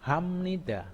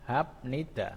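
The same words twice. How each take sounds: First: "hamnida" with p turned into m; higher "hamnida", m flowing into n; as pronounced. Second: "Hapnida" with a stopped p before n; as written. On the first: Teacher shows how it is read, assimilated "hamnida". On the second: Teacher reads the spelling first, unassimilated "Hapnida". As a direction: close hard on the p in "Hapnida". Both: Shown as a demonstration.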